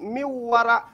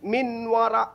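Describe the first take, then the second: First: The n sound merges into the following w. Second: The n sound is clearly pronounced before w. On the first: The speaker calls it right. "tapi miwara" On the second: The speaker calls it wrong. "Tidak boleh min wara"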